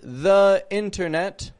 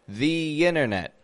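First: The word "the" has a weak uh vowel. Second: The word "the" has a long ee vowel. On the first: The speaker calls it wrong. "Not the internet" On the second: The speaker calls it right. "But the internet"

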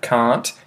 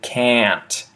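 First: It is said in an Australian accent. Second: It is said in an American accent. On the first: "which I say in Australian English like that" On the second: "American English where they would say can't"

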